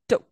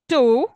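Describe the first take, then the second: First: The word has a short, weak vowel. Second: The word has a full, long vowel. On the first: The word is unstressed. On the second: The word is stressed.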